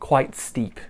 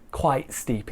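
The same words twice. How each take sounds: First: The T at the end of 'quite' is released. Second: The T in 'quite' becomes a glottal stop. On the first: The speaker calls it wrong. "quite steep is quite difficult to say quickly" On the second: The speaker calls it right. "is easier"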